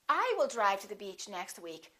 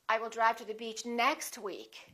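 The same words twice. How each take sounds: First: The stress falls on the word I. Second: The stress falls on the word next. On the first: It is this person, not someone else, who will drive. "not he" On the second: It happens next week, not this week. "Or you can emphasize next"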